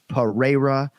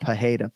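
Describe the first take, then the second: First: The middle consonant is a rolled R. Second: The middle consonant is an H sound. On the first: The speaker calls it right. "closer to a rolling R than an H" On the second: The speaker calls it wrong. "but not Pajeda. Please, no H"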